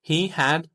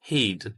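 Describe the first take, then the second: First: Two full words are said separately. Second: The words merge into one short syllable. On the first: "full form" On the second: "मुख्तसर सूरत"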